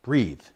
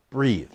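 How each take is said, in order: Both takes have the same delivery.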